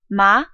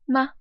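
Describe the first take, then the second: First: The pitch starts mid and rises quickly. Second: The syllable is short, light and unstressed. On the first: "starts a little bit lower, but then quickly goes up" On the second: "a neutral tone, so it's very unstressed"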